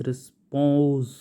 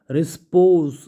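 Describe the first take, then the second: First: Said in the usual way. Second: रिस्पोज said louder with a clear final z; emphatic repeat. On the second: Shown as a demonstration. Teacher repeating रिस्पोज loudly for students. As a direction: punch रिस्पोज, ending on a firm z.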